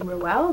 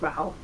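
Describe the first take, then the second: First: The name does not rhyme with towel. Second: The name rhymes with towel. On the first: The speaker calls it wrong. "they say Ruel" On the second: The speaker calls it right. "she said it rhymes with towel"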